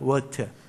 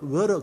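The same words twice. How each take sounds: First: The t is pronounced clearly and crisply. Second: The t is softened, almost like a d. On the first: "영국 사람은 곧 죽어도 water입니다" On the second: "미국 사람은 T 발음을 잘 안 하려고 해서"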